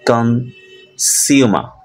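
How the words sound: It is said in a British accent. "in British accent"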